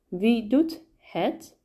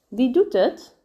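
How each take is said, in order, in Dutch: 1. Het woord het wordt volledig en duidelijk uitgesproken. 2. Het woord het wordt gereduceerd en verzacht uitgesproken.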